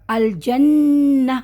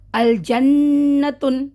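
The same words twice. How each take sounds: First: الجنہ slowly drawn, ending in a breathy ہ; pausal recitation. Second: الجنتن slowly with the tanween sounded; continuous recitation. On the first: Teacher showing the pause on الجنہ to students. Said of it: "جب میں یہاں رک رہی ہوں". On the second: Teacher showing the word read on without a stop, slowly. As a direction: read الجنتن slowly, -tan ending kept. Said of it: "continuation پڑھوں گی". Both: Shown as a demonstration.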